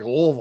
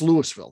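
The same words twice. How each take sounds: First: The name is slurred and mumbled together. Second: Every syllable of the name is said clearly. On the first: This is the Kentucky way of saying it. The speaker calls it wrong. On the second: This is the name of the Colorado town. The speaker calls it right.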